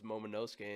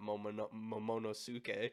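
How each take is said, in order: First: The syllables 'no' and 'ke' are not stressed. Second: The syllables 'no' and 'ke' are stressed. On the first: The speaker calls it right. "it was Momonosuke" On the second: The speaker calls it wrong. "I emphasized the wrong parts of it"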